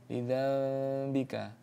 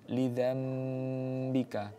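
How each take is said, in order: First: The lips stay slightly open on the m sound. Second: The lips close fully on the m sound. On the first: "dengan tidak menempelkan dua bibirnya, ada seperti rongga udara" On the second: "langsung memang tertutup mulutnya ... tertutup"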